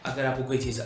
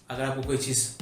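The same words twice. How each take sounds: The two takes are said the same way.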